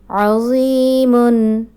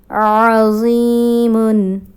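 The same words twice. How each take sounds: The two takes are said the same way.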